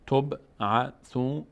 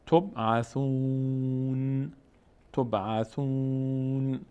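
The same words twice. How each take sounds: First: تبعثون very slowly in syllables, ending on a clear "na"; final fatha sounded. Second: تبعثون with long held "ū", closing on a bare "n"; final letter made sakin. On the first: Teacher spells out the word ending in fatha, تبعثون slowly with final "na". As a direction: break تبعثون into tob-a-thu-na. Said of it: "آخرش فتحه داره". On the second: Teacher shows stopping on the word, تبعثون slowly ending in vowelless "n". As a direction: drop the final "a" of تبعثون and draw out "-ūn". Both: Shown as a demonstration.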